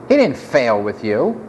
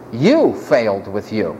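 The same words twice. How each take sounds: First: "He" lightly leaned on, low voice; stress on He. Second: "You" drawn out and accented, then falling low; stress on You. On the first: Preacher correcting the idea God failed, stress on "He". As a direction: deny it, putting the weight on "He". Contrasts who did the failing. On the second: Preacher turning blame on the listener, stress on first "You". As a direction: land hard on the first "You", slowly. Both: Real, not acted.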